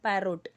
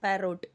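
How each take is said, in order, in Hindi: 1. दूसरा स्वर एक पूरा 'o' ध्वनि है। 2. दूसरा स्वर एक पूरा 'o' ध्वनि है।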